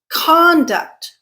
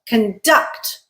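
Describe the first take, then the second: First: The stress is on the first syllable. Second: The stress is on the second syllable. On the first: It is a noun. "when we stress the first syllable" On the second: It is a verb. "When we stress the second syllable"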